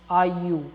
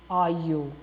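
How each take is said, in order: The two takes are said the same way.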